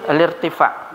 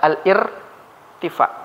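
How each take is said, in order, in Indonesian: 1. Al- langsung menyambung ke vokal berikutnya tanpa jeda. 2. Hentian glotis memisahkan al- dari vokal berikutnya. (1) "baca al-irtifa langsung saja" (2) "jangan kita baca al-irtifa. Dia enggak jelas bacanya"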